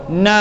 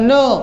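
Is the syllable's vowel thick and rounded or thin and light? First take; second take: thin; thick. First: The vowel is thin, light and open. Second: The vowel is thick, dark and rounded. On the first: The speaker calls it right. "Na tipis" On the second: The speaker calls it wrong. "jangan no"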